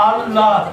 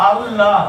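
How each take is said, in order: The two takes are said the same way.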